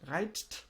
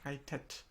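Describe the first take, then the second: First: It ends with a bare T, no extra syllable. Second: It ends with an added E syllable before T. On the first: The speaker calls it wrong. "reitet is a bit hard" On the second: The speaker calls it right. "So we say reitet"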